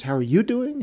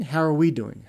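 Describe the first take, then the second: First: YOU lifted higher than the rest; stress on YOU. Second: WE stressed, pitch falls after. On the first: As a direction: lean on the word you. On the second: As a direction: lean on the word we. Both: Shown as a demonstration.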